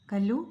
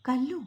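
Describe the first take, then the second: First: Louder calling shout, not raised in pitch; a loud, level shout of "Kallu". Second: Higher rising call across the field; a raised, rising shout of "Kallu". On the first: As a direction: call her name firmly from afar. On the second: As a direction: call her name from a distance. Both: Acted. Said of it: "കണ്ണൻ്റെ വിളിയൊച്ച".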